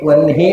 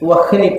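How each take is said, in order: First: The h sound comes after the n. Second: The h sound comes before the n. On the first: The speaker calls it wrong. "ವನ್ಹಿ ಅಲ್ಲ" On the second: The speaker calls it right. "ನಿಜವಾಗಿ ಆದರೆ ವಹ್ನಿ ಅಂತ ಹೇಳಬೇಕು"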